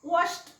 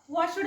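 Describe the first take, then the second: First: The ending is a sound between d and t. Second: The ending is a full, separate d sound. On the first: The speaker calls it right. "ड आणि ट चा मधला उच्चार" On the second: The speaker calls it wrong. "असं नाही वाचायचं"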